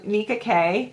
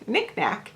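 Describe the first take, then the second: First: The name ends with an 'ay' vowel sound. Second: The name ends with a hard k sound. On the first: The speaker calls it right. "I think is how you say it" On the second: The speaker calls it wrong. "I almost want to call it Nick Knack"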